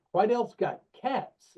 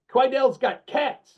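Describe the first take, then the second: First: Slow, higher, baffled question "Quidel's got cats?"; puzzled echo. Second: Slow, higher, Puerto Rican lilt on "Quidel's got cats"; imitating Steven's accent. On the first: Retold or imitated. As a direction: repeat "cats" back slowly, puzzled and rising. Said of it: "And I'm like". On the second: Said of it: "He goes".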